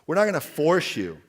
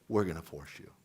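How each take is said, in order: First: Not hit hard and louder; the government's promise, with not punched; stress on not. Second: Lower, softer, knowing; the government's real message, dropped low and dry; wry reveal. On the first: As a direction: reassure them that nobody forces them, leaning on not. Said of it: "a goal of the Obama administration". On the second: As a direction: let the catch land dryly. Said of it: "Oh, but by two thousand sixteen". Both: Retold or imitated.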